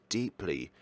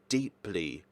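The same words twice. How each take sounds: The two takes are said the same way.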